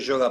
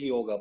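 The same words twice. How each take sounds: First: The initial y is said the Buenos Aires way. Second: The initial y sounds like English 'yellow'. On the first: This is the local habit, not the original pronunciation. The speaker calls it wrong. "en Buenos Aires se pronuncia y, la Y, terminó siendo yoga para todo el mundo" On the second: This follows the original Sanskrit pronunciation. The speaker calls it right. "Pero no lo es, es yoga. Porque se pronuncia así en su idioma"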